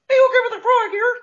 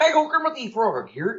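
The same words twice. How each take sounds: First: It is a high-pitched child's Kermit voice. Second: It sounds like the real Kermit the Frog.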